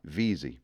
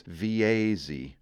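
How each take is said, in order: First: The Maine Veazie; right way. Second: Veazie as vee-AY-zee; the grating vee-ay-zee; outsider's Veazie; wrong way. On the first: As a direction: say Veazie VEE-zee. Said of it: "No, sir, Veazie". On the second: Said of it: "Like fingers on a chalkboard". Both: Shown as a demonstration.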